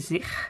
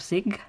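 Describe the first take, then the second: First: The g is a rough throaty sound. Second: The g is a hard stop sound. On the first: "you say zig" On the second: "instead of zig"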